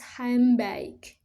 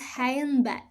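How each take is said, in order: First: The middle sounds blend into the following sound. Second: Each sound is said carefully as written. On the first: "in rapid uh, speech, ... it is often pronounced handbag" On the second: "normally uh, pronounced handbag"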